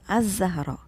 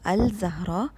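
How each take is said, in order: First: The l blends into the following consonant. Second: The l of the article is clearly pronounced. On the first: The speaker calls it right. "it is Az-Zahra. So it is assimilated" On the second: The speaker calls it wrong. "Not Al-Zahra"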